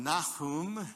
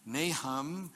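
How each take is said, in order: First: Nahum said nah-HOOM, stress on the second part; Nahum pronounced nah-HOOM. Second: Nahum said NAY-hum, stress on the first syllable; Nahum pronounced NAY-hum. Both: Shown as a demonstration. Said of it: "And from Nahum, Nahum".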